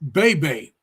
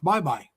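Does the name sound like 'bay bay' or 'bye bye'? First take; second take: bay bay; bye bye. First: The vowels sound like 'bay bay'. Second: The vowels sound like 'bye bye'. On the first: This is how Americans would say it. "is the way we would pronounce B A Y B A Y" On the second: This is how locals in the Philippines say it. "in the Philippines, it's pronounced Bye Bye"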